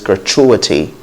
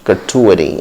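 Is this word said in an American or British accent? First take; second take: British; American. First: It is said with a British accent. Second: It is said with an American accent. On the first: "In British English" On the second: "in American English it's gratuity"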